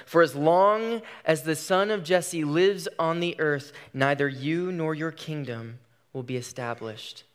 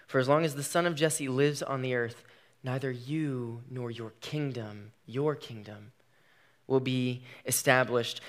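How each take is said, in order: First: Said in the usual way. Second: Quieter, slowed repeat of the verse; slower, softer repeat. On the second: Shown as a demonstration. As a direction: let it sink in, say it softer. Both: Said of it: "Hear that one more time".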